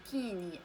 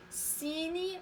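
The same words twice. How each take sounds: First: "كيني" opening on a hard k; wrong k pronunciation. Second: "سيني" drawn out, opening on s; correct s pronunciation. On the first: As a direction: show the mistake "كيني", ki in place of si. (نطق خاطئ "كيني" بالكاف عوض السين) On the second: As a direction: give "سيني" slowly with si, not ki. (نطق صحيح "سيني" بالسين) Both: Shown as a demonstration. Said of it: "سيني ماشي كيني".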